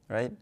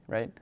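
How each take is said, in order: No difference in how they are said.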